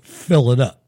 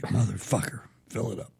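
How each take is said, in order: First: A short, bossy demand, falling at the end; curt customer order. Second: Low, soft grumbled curse under the breath; muttered under breath. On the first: Rich customer ordering the gas attendant, a curt demand. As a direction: order it like you own the place. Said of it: "and they were like". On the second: Gas attendant cursing the rich customer under his breath, quietly. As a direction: mutter it so the customer can't hear. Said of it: "I'm like". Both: Retold or imitated.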